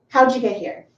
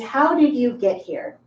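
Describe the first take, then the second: First: How did shrinks to howd, d and y make ja. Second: Every word is said fully and separately. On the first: The speaker is talking to a very close friend. "How did becomes howd. D plus Y is ja" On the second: The speaker is talking as a teacher. "As a teacher, my pronunciation is"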